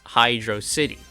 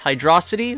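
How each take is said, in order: First: It is said as two separate words. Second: It is said as one word, like velocity. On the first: "two words" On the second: "one word, Hydrocity, like velocity"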